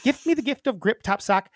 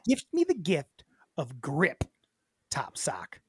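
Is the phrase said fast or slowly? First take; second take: fast; slowly. First: The phrase is said at a quick pace. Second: The phrase is said at a slow pace.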